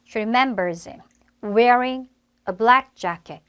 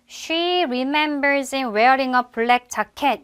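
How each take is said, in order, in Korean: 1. 이 문장은 강세를 받는 단어에 따라 올라갔다 내려갑니다. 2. 이 문장은 평평하고 일정한 억양으로 말합니다. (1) "올라갔다가 다시 내려갑니다" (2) "한국말처럼 단조롭게"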